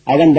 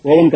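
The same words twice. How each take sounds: First: அவன் opening on short "uh"; correct oven pronunciation. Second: ஓவன் opening on long "oh"; mispronounced oven. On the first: Teacher confirms the right form, அவன் with short "uh" start. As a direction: say அவன் with "uh" in place of "oh". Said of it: "இதனுடைய சரியான உச்சரிப்பு". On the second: Teacher rejects the common form, ஓவன் with "oh" start. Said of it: "ஓவன் கிடையாது". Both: Shown as a demonstration.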